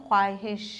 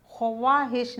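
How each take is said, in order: First: ख्वाहिश said khaahish with no w; silent w. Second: ख्वाहिश said khoowaahish with the w sounded; wrong take. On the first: Teacher to pupils, saying ख्वाहिश as khaahish with no w. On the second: Teacher to pupils, the wrong way with the w sounded. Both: Shown as a demonstration. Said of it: "ख्वाहिश नहीं पढ़ते".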